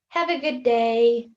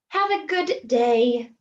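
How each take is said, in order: First: The two d sounds merge into one sound. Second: The two d sounds are said separately. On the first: The speaker calls it right. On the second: The speaker calls it wrong.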